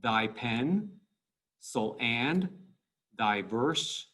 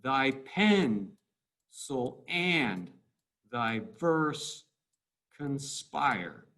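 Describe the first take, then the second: First: "Thy pen" as a separate unit with a rising end; two-syllable chunks. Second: "thy pen" with PEN stressed and falling; weak-strong iambs. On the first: Teacher highlights two syllables at a time, separated rising pairs. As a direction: pause between "so and" and "thy verse", leaving each open. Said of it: "two syllables". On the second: Teacher scans the line for students, paused weak-strong beats with falling ends. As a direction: separate "so and", "thy verse", "conspire", each landing on its second syllable. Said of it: "weak, strong". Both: Shown as a demonstration.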